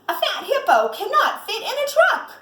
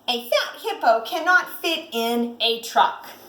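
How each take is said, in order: First: It is said loudly with excitement. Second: It is said in a calm, plain voice.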